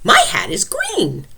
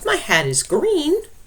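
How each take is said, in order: First: It is said excitedly, with strong feeling. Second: It is said calmly, as a plain statement.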